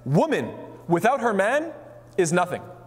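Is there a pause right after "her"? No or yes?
no. There is no pause after "her".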